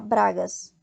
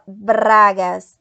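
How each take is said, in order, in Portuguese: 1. O R é um toque leve e curto. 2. O R é fortemente vibrado e trinado. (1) "a gente não fala bragas" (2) "o R no espanhol ele vibra mais"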